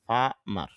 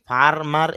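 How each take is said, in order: First: ফার্মার with the r dropped, famar; softer r. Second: ফার্মার with the r sounded; rhotic farmer. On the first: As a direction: say ফার্মার with almost no r. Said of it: "র সাউন্ডটা একটু কম করতে পারি". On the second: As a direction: say ফার্মার with a clear r. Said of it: "এভাবেও বলতে পারি". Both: Shown as a demonstration.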